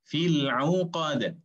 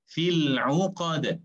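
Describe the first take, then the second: No difference in how they are said.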